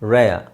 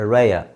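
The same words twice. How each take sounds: Both takes have the same delivery.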